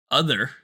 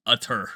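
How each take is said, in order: First: OTHER with a careful break before the TH. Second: OTHER said as UTTER, with a T; TH turned to T. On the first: Showing friends the hard speech-class word, OTHER with a careful TH. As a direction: say OTHER with a deliberate, separated TH sound. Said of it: "I always emphasize that, like, that break in those words". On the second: Showing a childhood speech slip, T for TH in UTTER. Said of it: "instead of saying other, it was utter". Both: Shown as a demonstration.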